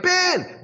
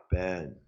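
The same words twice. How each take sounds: First: Imitating Pat yelling. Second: Low, soft, deadpan mumble of the name; barely bother to call out; low energy. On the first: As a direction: call out to him eagerly. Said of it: "he's like". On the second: Retold or imitated. Low-energy Robert calling to Ben Franklin, flat low quiet mumble. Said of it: "lower energy Robert's over there like".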